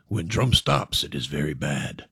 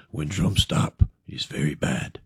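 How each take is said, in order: First: Deep, hushed doom-laden voice, much lower and softer; ominous warning. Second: Deep breathy whispered warning; ominous whisper. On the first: Acted. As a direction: lower to a grave, ominous hush. Ominous stranger in a joke. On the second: Retold or imitated. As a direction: hush it low and dark. Tribesman repeats warning, punchline setup.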